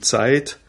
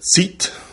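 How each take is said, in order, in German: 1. Der Vokal gleitet als Diphthong. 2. Der Vokal ist ein einzelnes langes i. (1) "in Wörtern wie Zeit" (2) "oder Zit und Hieser"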